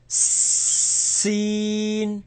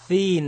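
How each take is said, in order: First: It begins with a sharp s sound, tongue hidden. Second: It begins with a th sound, tongue between teeth. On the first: The speaker calls it right. "but seen. So you can't see my tongue" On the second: The speaker calls it wrong. "Don't put your tongue out of your mouth with this. Don't say thin"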